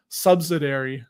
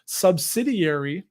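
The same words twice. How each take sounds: First: "subsidiary" as SUB-suh-dairy; old mispronunciation. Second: "subsidiary" slowly as sub-SID-ee-airy; correct subsidiary. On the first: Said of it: "I used to say subsidiary". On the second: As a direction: carefully stress SID in "subsidiary". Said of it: "I've burned it in my brain". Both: Shown as a demonstration.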